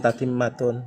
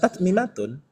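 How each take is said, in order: First: The two m sounds merge into one long m. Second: The two m sounds are separated by a vowel. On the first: This is the form actually used in practice. The speaker calls it right. "ada istilah tatimmatun" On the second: This is the pattern form, which is not actually used. The speaker calls it wrong. "bukan tatmimatun. Karena yang tatmimatun itu memang tidak dipakai"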